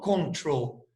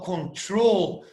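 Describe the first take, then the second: First: The stress is on the first syllable. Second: The stress is on the last syllable. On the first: The speaker calls it wrong. "Eu não falo control" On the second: The speaker calls it right. "eu falo control"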